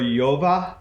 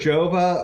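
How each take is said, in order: First: The name begins with a Y sound. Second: The name begins with a J sound. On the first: "or Yova. I want to say Yova sounds more European to me" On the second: "it's either Jova"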